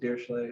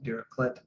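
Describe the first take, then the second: First: The name is pronounced in a French style. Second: The name is pronounced in a German style. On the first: He is thought of as French. "if you think of him as a Frenchman, you pronounce it" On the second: He is thought of as German. "If you think of him as a German man, you pronounce it"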